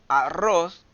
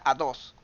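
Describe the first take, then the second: First: The middle consonant is a trilled R. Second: The middle consonant is a D sound. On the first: The speaker calls it right. "el niño en vez de decir arroz" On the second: The speaker calls it wrong. "me diga a dos"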